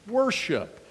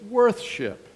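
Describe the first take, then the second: First: It is said as one quicker, shortened word. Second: It is said as two full, separate words.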